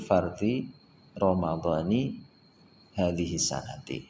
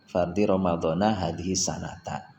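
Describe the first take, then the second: First: Both key words end with an 'i' vowel. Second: Both key words end with an 'a' vowel. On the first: The phrase is grammatically correct. The speaker calls it right. "yang benar susunannya" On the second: The phrase is grammatically odd. The speaker calls it wrong. "itu saja masih aneh maknanya"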